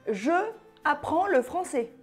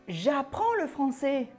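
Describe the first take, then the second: First: Je is said as a separate full syllable. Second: Je loses its vowel and joins apprends. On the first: The speaker calls it wrong. "on ne dit pas euh" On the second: The speaker calls it right. "On dit"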